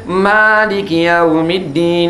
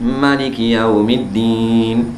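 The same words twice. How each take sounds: First: The first vowel of maliki is long. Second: The first vowel of maliki is short. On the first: "Ada alif ah itu" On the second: "Jumhur imam baca tak ada alif"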